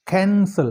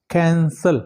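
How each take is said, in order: First: कैंसल with CAN stressed, sel falling away; stress on first syllable. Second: कैंसल in two clear beats, can-sel; two syllables. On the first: Teacher showing an accented syllable, first-syllable stress on कैंसल. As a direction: hit the CAN of कैंसल, let sel drop. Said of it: "कैन पे जोर दिया जाता है". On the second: Teacher dividing a word by sound, two-syllable कैंसल. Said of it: "दो syllables word है". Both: Shown as a demonstration.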